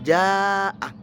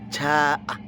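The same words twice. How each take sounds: First: The j is articulated in the standard Arabic way. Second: The j is articulated in a Javanese way. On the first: The speaker calls it right. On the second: The speaker calls it wrong. "jadi orang Jawa dibaca"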